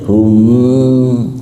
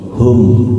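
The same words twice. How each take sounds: First: The m is held with a pause. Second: The m is released quickly, without pause. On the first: The speaker calls it wrong. "nggak boleh itu hum" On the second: The speaker calls it right. "nggak ada jeda, nggak ada tempo"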